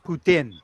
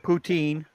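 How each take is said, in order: First: The last syllable has a short i vowel. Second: The last syllable has a long ee vowel. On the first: The speaker calls it right. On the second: The speaker calls it wrong.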